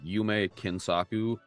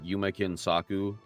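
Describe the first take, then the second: First: The stress is not on the syllable Kin. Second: The stress falls on the syllable Kin. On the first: The speaker calls it wrong. "I was putting the emphasis in the wrong place" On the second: The speaker calls it right. "Do the stress on the ke"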